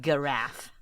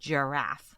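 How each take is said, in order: First: It begins with a hard G sound. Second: It begins with a soft J sound. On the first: The speaker calls it wrong. "Instead of giraffe" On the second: The speaker calls it right. "J, J"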